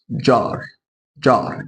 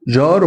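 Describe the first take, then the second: First: جار starting with a light d, as in English jar. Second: جار with a soft zh, no d before it; plain soft J. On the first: Teacher modelling English J for students, light d before it. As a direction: begin جار on a crisp dj. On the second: Teacher showing students the mistaken reading, plain soft J. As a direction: say جار starting like French j. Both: Shown as a demonstration. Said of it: "دال خفيفة كده في النطق".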